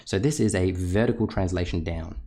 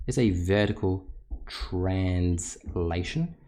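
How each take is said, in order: First: Said in the usual way. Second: Slow emphatic repeat. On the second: Shown as a demonstration. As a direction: drag the term out for students to note. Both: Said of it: "teacher repeats key term".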